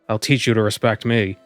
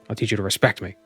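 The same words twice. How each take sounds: First: The stress is on me. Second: The stress is on respect.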